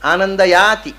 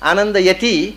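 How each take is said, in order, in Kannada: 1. ಮಧ್ಯದ ಸ್ವರ ದೀರ್ಘವಾಗಿ ಎಳೆದಿದೆ. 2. ಮಧ್ಯದ ಸ್ವರ ಚಿಕ್ಕದಾಗಿದೆ. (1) "ದೀರ್ಘ ಎಳೆದ್ರೆ ಏನರ್ಥ?" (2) "ಆನಂದಯತಿಂದ ಆನಂದಗೊಳಿಸುತ್ತಾನೆ"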